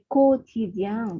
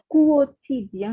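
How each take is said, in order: First: The first syllable is said with a 'ko' sound. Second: The first syllable is said with a 'kwo' sound. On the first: The speaker calls it right. "vous ne prononcez pas U" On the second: The speaker calls it wrong. "ce n'est pas quotidien"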